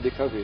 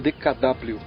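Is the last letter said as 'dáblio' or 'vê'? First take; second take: vê; dáblio. First: The last letter is said as vê. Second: The last letter is said as dáblio. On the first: This is how people actually say it. "mas a gente fala D K V" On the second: This is how the letters are written. "a sigla é D K W"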